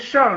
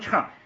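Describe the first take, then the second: First: The syllable is said with a falling tone. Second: The syllable is said with a rising tone. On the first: The speaker calls it right. "四声的是圣" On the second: The speaker calls it wrong. "乘车乘客是二声"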